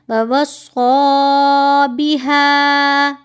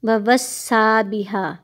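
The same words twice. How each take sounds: First: Slow chanted ववस्सा with a thick rounded s; drawn-out recitation, ववस्सा thick; correct heavy sad. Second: ववस्सा with a thin s; ववस्सा said with a light sin; flat, thin-s ववस्सा बिहा; wrong thin sad. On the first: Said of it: "स्वाद को आप मोटा करेंगे". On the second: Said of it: "इसको सीन पढ़ रहे". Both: Shown as a demonstration.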